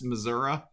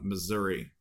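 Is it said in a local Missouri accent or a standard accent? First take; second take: local; standard. First: It is said in a local Missouri accent. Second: It is said in a standard accent.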